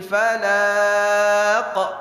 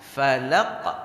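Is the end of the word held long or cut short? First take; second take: long; short. First: The end of the word is drawn out. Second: The end of the word stops abruptly. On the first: The speaker calls it wrong. "terbawa Qul a'udzu birabbil falaq. Salah" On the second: The speaker calls it right. "langsung falaq"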